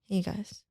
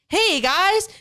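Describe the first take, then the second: First: It is said with lower energy. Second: It is said with high energy.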